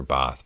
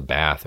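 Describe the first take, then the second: First: Bath with a long "ah", like "bahth"; British pronunciation. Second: Bath with the short a of cat; American pronunciation. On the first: Visitor offers the local alternative, British pronunciation. Two ways of saying town name. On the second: Visitor unsure how to name the town, American pronunciation. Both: Shown as a demonstration.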